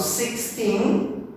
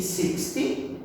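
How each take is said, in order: First: "sixteen" with a long rising final syllable; six-TEEN, end-stressed. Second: "sixty" softer, with a short weak ending; SIX-ty, front-stressed. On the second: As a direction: hit the start of "sixty", let "ty" shrink. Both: Shown as a demonstration. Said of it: "Mesma coisa no nosso".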